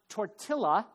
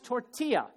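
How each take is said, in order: First: The word is said the way outsiders say it. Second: The word is said the way locals say it. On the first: The speaker calls it wrong. "It's not tortilla" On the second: The speaker calls it right. "the proper way to say some words"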